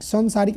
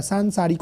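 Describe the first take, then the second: First: सांसारिक said wrongly with a short "सं" start; wrong form. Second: सांसारिक said with a long nasal "सां" at the start; correct form. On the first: Teacher showing students the wrong pronunciation, stated plainly. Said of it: "सांसारिक नहीं होता है". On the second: Teacher giving students the right pronunciation, calmly. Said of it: "सांसारिक होता है". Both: Shown as a demonstration.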